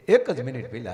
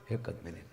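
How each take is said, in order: First: Said in the usual way. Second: Fading to near silence. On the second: Shown as a demonstration. Repeats the phrase, fading out.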